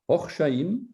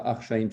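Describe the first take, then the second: First: The first vowel is an O sound. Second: The first vowel is an A sound. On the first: The speaker calls it right. "c'est Orchaïm" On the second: The speaker calls it wrong. "c'est pas Archaïm"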